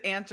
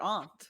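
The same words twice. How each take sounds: First: AUNT said like "ant"; AUNT rhyming with "pant"; AUNT with short a. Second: AUNT said like "ahnt"; AUNT rhyming with "want"; AUNT with broad ah. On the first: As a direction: say AUNT with the vowel of "cat". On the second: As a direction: say AUNT with the vowel of "father". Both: Shown as a demonstration. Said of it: "is it aunt or aunt".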